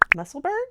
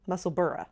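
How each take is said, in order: First: The ending is said as one syllable, 'burg'. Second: The ending is said as two syllables, 'borough'. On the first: This is the American way of saying it. The speaker calls it wrong. "Us Americans say Berg" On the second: This is the local way of saying it. The speaker calls it right. "they say Borough"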